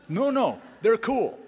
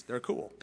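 First: Put-on insistent teen. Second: Dry sarcasm. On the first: Pastor voices an insistent teen. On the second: Shown as a demonstration.

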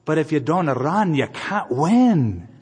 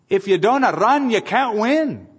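First: Gentle smiling encouragement. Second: Raised high and loud, driving the line home; preached exhortation. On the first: Retold or imitated. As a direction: smile it to him kindly. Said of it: "she looks at him and smiles and says". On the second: Real, not acted. Pastor urging the congregation never to quit, loud and high. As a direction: proclaim it to the congregation. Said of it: "It's true. You just can't quit".

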